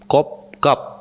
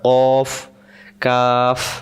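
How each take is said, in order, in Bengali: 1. প্রতিটি নাম বন্ধ ঠোঁট দিয়ে শেষ হয়, p-এর মতো। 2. প্রতিটি নাম বাতাস বেরিয়ে যাওয়ার শব্দ দিয়ে শেষ হয়, f-এর মতো। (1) "আমরা অনেকে বলি কপ কাপ, ঠোঁট মিললে যাবে না" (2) "শেষে যেহেতু ফ অক্ষর পড়ছে, তাহলে বাতাস বেরোবে"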